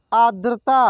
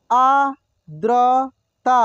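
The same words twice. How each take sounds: First: Said in the usual way. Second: आर्द्रता drawn out slowly, syllable by syllable; slow sounding out. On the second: Shown as a demonstration. Teacher slowly sounds out आर्द्रता for students. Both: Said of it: "एक एक मात्रा को अलग अलग करके".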